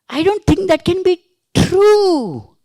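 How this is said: The stress falls on the word true. The statement may be false. "It may be false"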